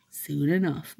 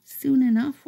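First: Said in the usual way. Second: High bird voice with soon enough rising; a bird promising grapevines, high and rising. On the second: Pretend. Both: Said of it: "They're like".

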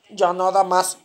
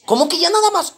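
First: Said in the usual way. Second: High-pitched, baffled challenge; incredulous question. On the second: Acted. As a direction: question it in raised-pitch disbelief. Policía incrédulo cuestiona su respuesta. (incrédulo, con la voz aguda)

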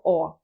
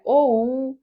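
First: О held as a clean single vowel; о as one steady vowel; pure о. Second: Оу said as a gliding diphthong; оу as a sliding diphthong; wrong оу. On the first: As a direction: keep о pure, no slide toward у. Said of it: "а просто о". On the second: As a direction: slide from о into у on оу. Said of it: "не оу". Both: Shown as a demonstration.

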